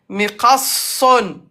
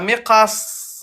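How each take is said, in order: First: The word ends with a full '-un' ending. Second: The word ends cut short without a vowel. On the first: The word is said in running speech. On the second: The word is said at a stop.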